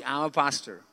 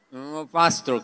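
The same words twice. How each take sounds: First: Muffled, mumbled through a covered mouth; mumbled behind hand. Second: Said in the usual way. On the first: Retold or imitated. Ashamed pastor mumbling his job to the doctor. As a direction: hide the words behind your hand. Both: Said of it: "yo me tapo la boca y yo hago así".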